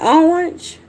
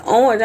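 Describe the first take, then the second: First: Orange as drawn-out "awnge", high and questioning; pronouncing on request. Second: Said in the usual way. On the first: Retold or imitated. Country speaker asked by people to pronounce orange, puzzled demonstration. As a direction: say orange puzzled, higher, in a Southern accent. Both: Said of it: "people tell me to pronounce certain words".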